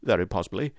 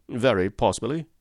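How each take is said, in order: First: Very stressed, possibly dropped softer; a nervous echo with very stressed; echoed, quieter. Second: A strained, smiling cry with possibly stressed; forced eager cry. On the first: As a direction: repeat it softer, leaning on very. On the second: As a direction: lean on possibly and let it rise eagerly. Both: A narrator's reading. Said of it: "cried Mister Pinner, with a ghastly smile".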